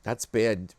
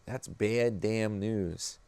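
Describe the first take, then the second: First: Said in the usual way. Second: Drawn out slowly on bad; grave, drawn-out delivery; slow, heavy emphasis. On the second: Shown as a demonstration. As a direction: stretch out That's bad damn news slowly.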